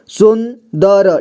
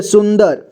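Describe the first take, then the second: First: सुंदर stretched slowly as sun, da-ra; syllable-by-syllable reading. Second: Said in the usual way. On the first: Shown as a demonstration. Teacher showing learners how to join letters, सुंदर slowly as sun-da-ra. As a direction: sound out सुंदर slowly with final vowel. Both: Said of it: "जोड़ जोड़ करके पढ़ना है".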